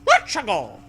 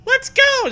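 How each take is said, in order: First: Put-on high, loud girl voice; Zoe voice. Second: Put-on very high, loud girl voice; Zoe voice. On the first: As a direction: mimic Zoe's pep. Echo in put-on voice. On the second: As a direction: squeak it brightly like Zoe. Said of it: "Zoe replies".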